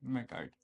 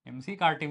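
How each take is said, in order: First: The first part is said as one syllable. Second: The first part is spelled out as letters. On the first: The speaker calls it right. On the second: The speaker calls it wrong. "एमसी कार्टी मत बोलो भाई"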